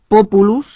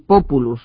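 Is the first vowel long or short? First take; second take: short; long. First: The first vowel is short. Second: The first vowel is long. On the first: It means people. "la primera sílaba breve" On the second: It means poplar tree. "la primera sílaba larga"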